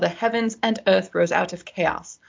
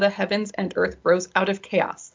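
First: It is read in a British accent. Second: It is read in the reader's usual accent.

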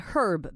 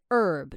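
First: The h sound at the start is pronounced. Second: The h sound at the start is silent. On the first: It sounds like a person's name. "some people say herb 比较像是一个人的名字" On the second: It refers to the plant. "就是那个h 不发音"

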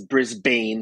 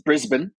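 First: It is pronounced the way the spelling looks. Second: It is pronounced differently from how it looks. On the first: The speaker calls it wrong. "some people mispronounce as Brisbane because that's how it looks" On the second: The speaker calls it right. "But it's Brisbane"

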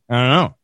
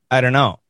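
First: The words are squeezed together even more heavily. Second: The words run together with reduced sounds. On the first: "And sometimes we even say" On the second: "We say"

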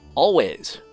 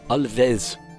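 First: The name is said in a plain English accent. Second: The name is said with a German-like accent.

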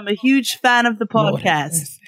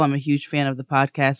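First: It is read in a put-on British accent. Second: It is read in the speaker's usual non-British accent.

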